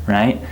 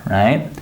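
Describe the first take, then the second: The two takes are said the same way.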